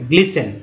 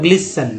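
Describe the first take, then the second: First: The t sound is silent in the word. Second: The same.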